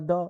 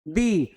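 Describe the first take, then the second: First: It ends in a short 'uh' vowel. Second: It ends in a long 'ee' vowel. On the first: The next word starts with a consonant. "जब consonant से start हो तो क्या पढ़ेंगे" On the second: The next word starts with a vowel. "Vowel से अगर शुरू होता है वर्ड तो क्या बोलते हैं"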